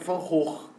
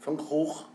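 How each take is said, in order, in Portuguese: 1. O nome é pronunciado com uma pronúncia holandesa. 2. O nome é pronunciado com uma pronúncia holandesa.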